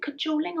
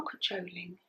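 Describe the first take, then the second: First: "cajoling" offered as one way to say it; first pronunciation of cajoling. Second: "cajoling" with a changed middle vowel; alternative pronunciation of cajoling. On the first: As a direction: try "cajoling" the first way, questioningly. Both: Shown as a demonstration. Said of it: "Is it cajoling or cajoling?".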